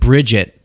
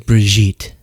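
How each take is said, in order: First: The name sounds like the English name Bridget. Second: The name ends in a soft zh and eet. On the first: The speaker calls it wrong. "I felt like that didn't sound right" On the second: The speaker calls it right. "It was Brigitte"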